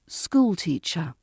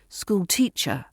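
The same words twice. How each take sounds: First: The main stress is on the first word. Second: The main stress is on the second word. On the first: The speaker calls it right. "the stress falls on the school and not the teacher" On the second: The speaker calls it wrong. "It sounds wrong when you say"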